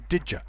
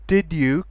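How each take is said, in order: First: The d and y merge, ending in a schwa. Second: The d and y are said separately. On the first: "Also, did ya" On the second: "Did you can become"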